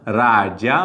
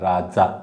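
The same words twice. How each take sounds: First: The middle consonant is a palatal 'j' sound. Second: The middle consonant is a dental 'dz' sound. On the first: The feminine form is राज्ञी. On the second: The feminine form is राणी.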